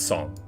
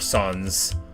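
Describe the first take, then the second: First: The final S is dropped, French style. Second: The final S is pronounced. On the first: The speaker calls it right. "it's Song" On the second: The speaker calls it wrong. "people say it Sans"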